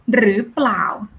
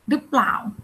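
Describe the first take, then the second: First: The phrase is said in its full form. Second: The phrase is said in a shortened form.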